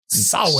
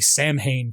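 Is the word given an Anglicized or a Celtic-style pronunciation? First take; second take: Celtic-style; Anglicized. First: It is given a Celtic-style pronunciation. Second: It is given an Anglicized, as-spelled pronunciation. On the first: The speaker calls it right. "In Celtic, it's something like" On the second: The speaker calls it wrong. "that's not how you say it"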